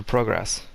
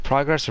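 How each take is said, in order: First: "progress" as PROH-gress; long-o pronunciation. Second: "progress" as PRAH-gress; short-o pronunciation. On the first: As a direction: round oh in progress. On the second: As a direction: open ah in progress. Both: Shown as a demonstration. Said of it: "progress or progress".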